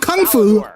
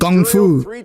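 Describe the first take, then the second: First: The first word starts with a K sound. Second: The first word starts with a G sound. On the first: "Not kung fu" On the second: "She said it with a G"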